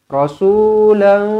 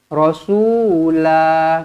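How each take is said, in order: First: The word ends in a nasalized n sound. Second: The word ends in a long vowel. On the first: The reader continues into the next word. "Kalau nak sambung kita kena dengungkan dua harakat di sini" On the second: The reader stops after this word. "bila berhenti dekat sini kita akan baca dengan rasula"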